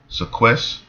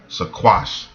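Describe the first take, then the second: First: The word is said with an 'e' vowel. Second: The word is said with an 'a' vowel. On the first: The speaker calls it wrong. "this is not how you say it" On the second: The speaker calls it right. "it's probably something like"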